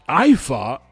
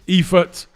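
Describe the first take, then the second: First: The name sounds like 'I fart', German-style. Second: The name is said in an anglicized way. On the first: This is how others said the name during the fight. The speaker calls it wrong. "You're gonna go a whole fight calling this guy I fart?" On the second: This is the speaker's own choice of pronunciation. The speaker calls it right. "I'm calling him Eifert now"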